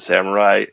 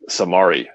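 First: The word is said in its usual samurai form. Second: The word is said as samari, without the u. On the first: The speaker calls it right. "I would always pronounce the word samurai" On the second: The speaker calls it wrong. "I thought it was Samari"

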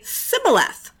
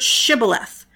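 First: The word begins with an 's' sound. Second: The word begins with an 'sh' sound. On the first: The speaker is from Ephraim. The speaker calls it wrong. "they didn't say the sh sound" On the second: The speaker is from Gilead. The speaker calls it right. "a word that had the sh sound in it"

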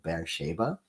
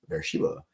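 First: The name is said with a local Hebrew pronunciation. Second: The name is said with an American English pronunciation.

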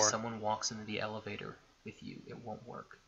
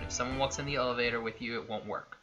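First: It is said in a put-on creepy voice. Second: It is said in a plain, normal voice.

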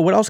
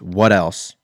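First: It is said in a warm, friendly way. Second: It is said in a curt, blunt way. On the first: The server is politely offering more help. "they don't say what else like, oh, what else can I get for you?" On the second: The customer feels pressured to order more. "you're really direct"

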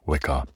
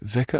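First: The word begins with a W sound. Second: The word begins with a V sound. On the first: The speaker calls it right. "You pronounce the W" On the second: The speaker calls it wrong. "Is it vicar or is it Wicca?"

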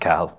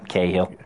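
First: The name is said with an Irish pronunciation. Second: The name is said with a British pronunciation. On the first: This is how people at home say the name. "for us it's Cahill" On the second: This is how people elsewhere say the name. "For them, Cahill"

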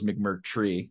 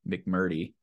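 First: An R sound follows the T. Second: No R sound follows the T. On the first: The speaker calls it right. "I didn't know it was McMurtry" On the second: The speaker calls it wrong. "I was saying McMurty"

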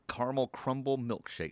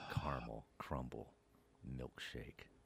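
First: The words are said at a normal speed. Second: The words are said at a slow speed.

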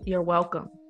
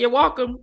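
First: The vowel in welcome sounds like E. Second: The vowel in welcome sounds like O. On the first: The speaker is adjusting their speech for work. "You make sure that E is in there and not that O" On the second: The speaker is talking naturally at home. "But at home"

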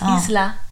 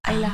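First: The S is pronounced in the name. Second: The S is silent in the name. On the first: This is the Spanish word. "Whereas Isla would be" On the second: This is the Irish name. "Because they don't pronounce the S"

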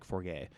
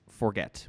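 First: The name is given a French-style pronunciation. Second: The name is given a plain English pronunciation. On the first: "it's not French like forget" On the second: "It's forget"

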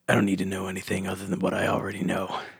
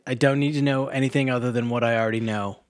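First: It is read in a put-on character voice. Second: It is read in the speaker's natural voice.

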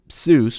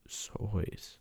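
First: The vowel sounds like the one in 'juice'. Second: The vowel sounds like the one in 'voice'. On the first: This is the usual present-day pronunciation. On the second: This is how the name was originally pronounced.

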